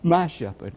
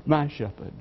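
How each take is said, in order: First: MY leaned on, shepherd falling after it; My lifted and held, shepherd trailing off; stress on MY. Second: My stressed again but softer, a quiet repeat; a hushed echo of my shepherd, weight on my. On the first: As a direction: press the word My as the point. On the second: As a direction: let my linger, drop the volume on shepherd. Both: Shown as a demonstration. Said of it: "the heart of religion is his personal pronouns".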